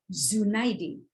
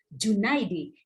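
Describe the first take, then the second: First: The name begins with a z sound. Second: The name begins with a j sound. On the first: The speaker calls it wrong. "bukan Z" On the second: The speaker calls it right. "J bukan Z"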